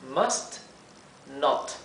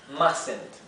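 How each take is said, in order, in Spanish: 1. La t de 'must' se pronuncia claramente. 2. La t de 'must' es muda. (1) "las T's finales se pronuncian bien claramente" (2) "esta T que ven aquí no se pronuncia"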